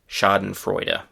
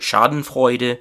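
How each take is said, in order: First: It is said with an English pronunciation. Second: It is said with a German pronunciation. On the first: "in English it is" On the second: "the German pronunciation is very similar"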